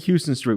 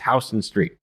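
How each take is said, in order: First: The name is pronounced the way a tourist says it. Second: The name is pronounced the way locals say it. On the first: The speaker is an outsider visiting the city. The speaker calls it wrong. "don't say Houston Street. We know you're a tourist" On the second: The speaker knows the city. The speaker calls it right. "it's Houston Street"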